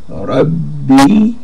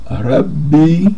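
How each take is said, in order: No difference in how they are said.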